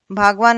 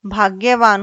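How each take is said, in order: First: भागवान as "bhaag-vaan"; g straight into v in भागवान; wrong form without y. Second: भाग्यवान as "bhaagya-vaan"; correct form with y. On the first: Teacher shows wrong भागवान, lacking y. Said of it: "भागवान नहीं होता". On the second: Teacher corrects to भाग्यवान, with gy. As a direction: sound the gy in भाग्यवान. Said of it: "होता है शुद्ध रूप". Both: Shown as a demonstration.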